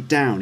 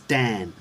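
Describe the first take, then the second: First: It sounds like the word 'down'. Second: It sounds like the name 'Dan'. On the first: "he doesn't say down" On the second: "he says Dan"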